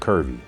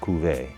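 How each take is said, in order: First: The word sounds like 'curvy' with an 'r'. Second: The word sounds like 'coo-vay' with no 'r'. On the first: This is how someone else kept saying it. "The server kept calling it curvy" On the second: This is believed to be the proper pronunciation. "I believe you pronounce this Cuvée"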